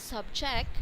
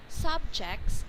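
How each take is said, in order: First: "subject" quicker, weight on -JECT; verb stress. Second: "subjects" stressed on SUB, a bit higher; noun stress. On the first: Tutor shows the verb form to the student, stress on JECT. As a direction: push to the end of "subject". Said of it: "the faster one, it's verb". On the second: Tutor shows the noun form to the student, stress on SUB. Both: Shown as a demonstration.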